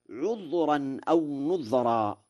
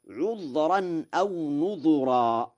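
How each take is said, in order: First: Said in the usual way. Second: Slow recital, "نذرا" with u on the dh; "نذرا" with damma on dhal. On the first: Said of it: "قرأ ورش". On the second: Shown as a demonstration. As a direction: say "نذرا" as nudhuran. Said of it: "بضم الذال". ("نذرا" بضم الذال)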